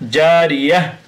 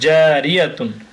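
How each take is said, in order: First: The word ends with a soft 'h' sound. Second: The word ends with a 'tun' sound. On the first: The reading stops after this word. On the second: The reading continues to the next word.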